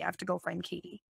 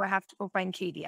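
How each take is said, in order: First: Much softer, quicker, drifting away; fading repeat. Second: Said in the usual way. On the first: Retold or imitated. Mom departing the dream, repeating herself more and more quietly. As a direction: let the repeat fade out as she leaves. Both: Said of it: "and she said".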